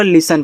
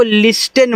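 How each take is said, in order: First: लिसन said smoothly as "lisun", T silent; लिसन blended into one word, silent T; correct pronunciation. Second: लिस्टेन said with the T sounded, "lis-ten"; लिस्टेन with a sounded T, as students wrongly say it; wrong pronunciation. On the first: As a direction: model the right way, लिसन with no T. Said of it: "मिला के पूरा लिसन पढ़ना है". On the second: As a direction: mispronounce it as लिस्टेन, T clearly spoken. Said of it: "लिस्टेन आपका गलत उच्चारण है". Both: Shown as a demonstration.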